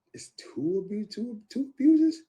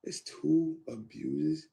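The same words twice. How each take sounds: First: High, loud, slow gasp of disbelief; stunned disbelief. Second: Drawn out, rising, stunned question; slow disbelief. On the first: Hearing of her two abuses, shocked high disbelief. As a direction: repeat it like you can't believe your ears. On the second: Repeating the news to himself, slow stunned question. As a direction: let it sink in slowly. Shocked at hearing of abuses. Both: Retold or imitated.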